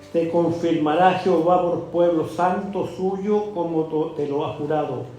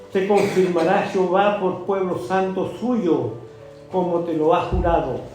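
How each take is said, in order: The two takes are said the same way.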